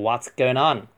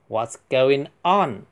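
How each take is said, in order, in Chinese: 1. 这些单词连在一起，说成一串连贯的音。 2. 这些单词是分开说的，没有连读。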